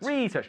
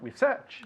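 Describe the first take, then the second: First: It is pronounced the way the noun is. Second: It is pronounced the way the verb is. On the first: It names the activity as a thing. The speaker calls it right. "substantivo is research" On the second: It names the action of doing it. The speaker calls it wrong. "Research is the verb"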